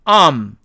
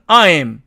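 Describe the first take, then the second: First: The second vowel part is dropped. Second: The full two-part vowel is pronounced. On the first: "실제로는 ... 모음 이가 탈락하는 것입니다" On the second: "I'm의 사전식 발음은 I'm 이렇게 되지만"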